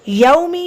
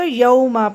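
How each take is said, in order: First: The word ends with an i vowel. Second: The word ends with an a vowel. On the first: The speaker calls it right. "यौमी है" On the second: The speaker calls it wrong. "यौमा पढ़ देना"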